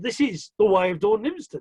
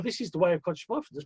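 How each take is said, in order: First: "Dawn Livingston" stressed in playful correction. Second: Said in the usual way. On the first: Real, not acted. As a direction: put emphasis on "Dawn Livingston" as the swapped-in name. Correcting title to honour the guest.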